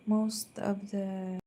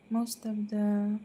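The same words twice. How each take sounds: The two takes are said the same way.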